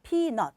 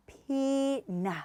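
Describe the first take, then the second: First: Peanut chopped short, staccato; the wrong way: peanut clipped. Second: Peanut in two joined syllables, PEA-nut; the right way: peanut in two smooth beats. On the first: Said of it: "스타카토가 아니라". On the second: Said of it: "두 개로 하시면". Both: Shown as a demonstration.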